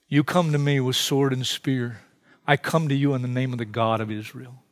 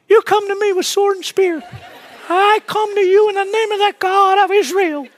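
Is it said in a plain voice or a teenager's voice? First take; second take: plain; teenager's voice. First: It is said in a plain adult voice. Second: It is said in a young teenager's voice.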